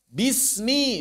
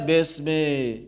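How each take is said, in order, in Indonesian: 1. Vokalnya bunyi i yang jelas. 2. Vokalnya terdengar seperti e yang samar.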